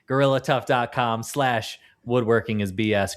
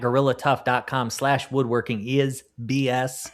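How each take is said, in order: First: It is said without a Southern accent. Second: It is said in a Southern accent.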